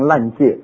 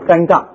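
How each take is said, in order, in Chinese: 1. 第二个音节听起来像 'jie'。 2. 第二个音节听起来像 'ga'。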